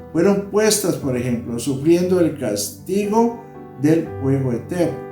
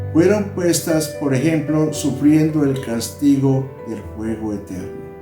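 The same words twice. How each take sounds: No difference in how they are said.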